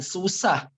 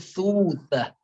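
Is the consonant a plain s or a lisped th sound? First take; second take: plain s; lisped th. First: The consonant is a plain s sound. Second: The consonant is a lisped th sound. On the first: The speaker calls it wrong. "Bukan susah" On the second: The speaker calls it right. "tapi susah"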